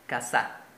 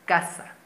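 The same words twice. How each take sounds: First: The stress is on the last syllable. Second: The stress is on the first syllable. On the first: "Si la mayor fuerza de voz fuese en la última sílaba, se dijese casa" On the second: "En la penúltima sílaba, porque dice casa"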